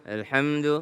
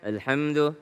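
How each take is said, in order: No difference in how they are said.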